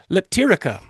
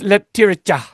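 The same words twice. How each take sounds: First: The name is said with an English accent. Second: The name is said with a Bosnian accent. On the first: The speaker calls it wrong. "not even close" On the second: The speaker calls it right. "it's Leptirica"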